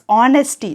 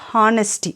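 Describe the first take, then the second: First: The word begins with a vowel; h is silent. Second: The word begins with an audible h sound. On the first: The speaker calls it right. "pronounce it as honesty, H is silent here" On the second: The speaker calls it wrong. "not honesty"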